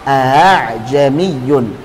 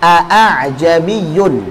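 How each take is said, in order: First: The second glottal stop is softened toward a vowel. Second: Two full glottal stops are pronounced at the start. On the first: "Tashil itu mengucapkan antara hamzah dan huruf mat" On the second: "Harusnya ada dua hamzah dan berat pengucapannya"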